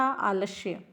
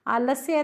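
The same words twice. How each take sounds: First: आलस्य with sh replacing s; hushed sh sound inside आलस्य; affected आलस्य. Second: आलस्य with an s before the y; standard आलस्य. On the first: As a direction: say आलस्य as "aa-lash-ya". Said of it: "बन बन के बोलते हैं". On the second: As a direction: say आलस्य as "aa-las-ya". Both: Shown as a demonstration.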